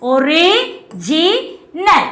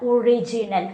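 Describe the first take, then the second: First: original very slowly split, ജി set apart; single out the middle syllable ജി in original; stress on ജി. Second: Said in the usual way. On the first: Shown as a demonstration. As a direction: say original as o-ri, JI, nal with gaps. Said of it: "ജിയിലാണ് എന്ത് വരുന്നത്". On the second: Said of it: "ഏതാണ് correct ആയിട്ടുള്ളത്".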